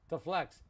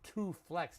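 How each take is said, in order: First: The word 'to' is reduced to a weak vowel. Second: The word 'to' has a full, clear vowel. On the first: The speaker calls it right. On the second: The speaker calls it wrong. "We don't say to flex. It's too much work on the mouth"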